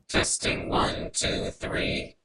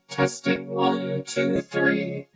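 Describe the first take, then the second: First: The voice is mixed into a harsh noise burst. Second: The voice is blended with musical synthesized strings. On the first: "And for our final carrier" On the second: "We sound quite angelic"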